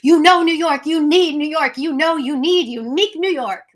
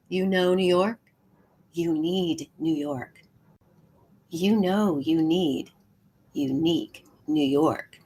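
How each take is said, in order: First: It is said in a big, excited way. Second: It is said in a hushed, secretive way.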